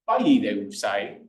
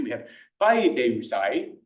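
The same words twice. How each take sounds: First: Paideusai said very slowly and carefully; classical pronunciation. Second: Slow careful paideusai with a rising pitch accent; classical pronunciation. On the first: Lecturer repeating the command form very slowly. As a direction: stretch out each syllable of paideusai. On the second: Teacher demonstrating the command form, slow and rising. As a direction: sound out paideusai slowly, rising at the end. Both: Shown as a demonstration. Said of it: "I'll do a classical pronunciation".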